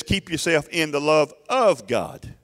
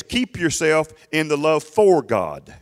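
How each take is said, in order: First: "of" stressed, slow and deliberate. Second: "for" leaned on, slow and drawn out; stress on FOR. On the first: Shown as a demonstration. Preacher correcting the misreading, stressing "of". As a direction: hit the word "of" in "love of God". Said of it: "That's not what it says. It says". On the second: Retold or imitated. Preacher mocking the common misreading, stressing "for". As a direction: stress the word "for" in "love for God". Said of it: "They read it like this".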